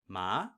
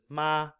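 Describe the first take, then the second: First: The pitch starts mid and glides upward. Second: The pitch starts high and stays level. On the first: "starting more at a mid level and gliding upwards" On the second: "you're starting high, staying high, not veering from that"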